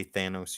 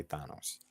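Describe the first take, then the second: First: Thanos with a flat a, THAN-os. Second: Thanos with a broad a, THAH-nos. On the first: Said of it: "I say Thanos". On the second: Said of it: "you say Thanos". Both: Shown as a demonstration.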